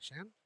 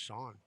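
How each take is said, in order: First: The vowel sounds like the one in 'man'. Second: The vowel sounds like the one in 'dawn'. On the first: The speaker calls it wrong. "when I first met him, I said the thing" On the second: The speaker calls it right. "It's pronounced Sean"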